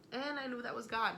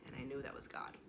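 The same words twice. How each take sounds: First: Higher, stronger, certain of it; firm conviction. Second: Softer, lower, almost to herself; hushed awe. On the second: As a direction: let it sink in quietly. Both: Real, not acted. Repeats the realization twice.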